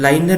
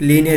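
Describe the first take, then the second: First: It starts with 'lie' and has two syllables. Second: It starts with 'lee' and has three syllables. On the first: The speaker calls it wrong. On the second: The speaker calls it right.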